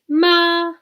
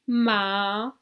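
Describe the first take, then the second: First: The pitch stays level and flat. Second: The pitch dips down and then rises. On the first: It means mother. "the first tone in Chinese is a flat tone" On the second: It means horse. "The third type of tone goes down and then up"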